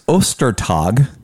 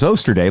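First: The name starts with the sound of Easter. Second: The name rhymes with the word yesterday. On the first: The speaker calls it right. "as in Easter Day" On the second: The speaker calls it wrong. "like yesterday"

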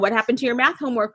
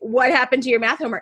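First: It sounds like a genuinely curious question. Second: It sounds like an accusation, already sure.

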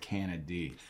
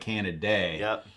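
First: The name ends with a 'dee' sound. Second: The name ends with a 'day' sound. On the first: This is the way the speaker chooses to say it. The speaker calls it right. "It's just a Y. So I'm going with Canady" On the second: This is how other people say the name. The speaker calls it wrong. "some people say Canaday, but there's no A-Y"

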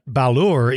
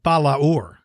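First: It has two syllables, merged together. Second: It has three syllables, stressing the second. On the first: "usually the way you'll hear most people pronounce it" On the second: "like three syllables, with the second A being emphasized"

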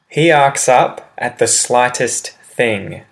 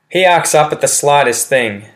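First: The sentence is spoken slowly and clearly. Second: The sentence is spoken quickly and naturally. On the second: "Example said quickly"

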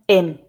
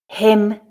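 First: The word begins without any h sound. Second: The word begins with a clear h sound. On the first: "the weak form with the h sound dropped" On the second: "I'll read the full form"

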